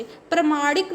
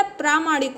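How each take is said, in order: First: प्रमाणिक with short first vowel, pra-maanik; wrong pronunciation. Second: प्रामाणिक with long first vowel, praa-maanik; correct pronunciation. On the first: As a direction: keep the 'pra' of प्रमाणिक short. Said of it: "नहीं होता". (प्रमाणिक में 'प्र' छोटा बोलें) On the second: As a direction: stretch the 'praa' of प्रामाणिक. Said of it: "होता है". (प्रामाणिक में 'प्रा' लंबा बोलें) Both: Shown as a demonstration.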